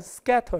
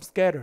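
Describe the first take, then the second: First: The t is a crisp, clear t sound. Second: The t is a soft flap like d. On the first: "영국식으로 발음하면 약간 scatter 이렇게 되는데" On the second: "미국식으로 발음하면 scatter 이렇게 씁니다"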